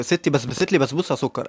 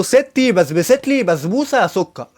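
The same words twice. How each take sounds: First: Shy first try. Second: Said out loud, slowly. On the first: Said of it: "قول ستي بسبست لي بسبوسة". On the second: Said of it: "قال لي بصوت عالي". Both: Retold or imitated.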